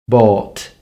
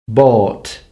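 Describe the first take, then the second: The two takes are said the same way.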